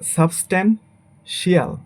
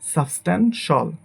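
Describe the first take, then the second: First: The ending is said as two syllables, shee-al. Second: The ending is said as one syllable, shal. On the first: The speaker calls it wrong. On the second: The speaker calls it right.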